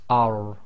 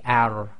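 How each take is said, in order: First: The r sound is heavy and full. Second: The r sound is light and thin. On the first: The speaker calls it right. "it's ar. And the tafkhim is really done by lifting the back of the tongue" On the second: The speaker calls it wrong. "you cannot say ar"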